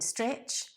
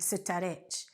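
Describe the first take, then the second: First: The consonants at the start run together. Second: Extra vowels break up the opening consonants. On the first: The speaker calls it right. "not adding the vowels into the words" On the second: The speaker calls it wrong. "adding the vowels into the words"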